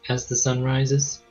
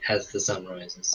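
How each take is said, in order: First: The voice rises at the end, like a question. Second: The voice falls at the end, like a statement. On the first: It asks whether to come at sunrise. The speaker calls it wrong. "that sounded like a question" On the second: It confirms coming at sunrise. The speaker calls it right. "She was saying it like"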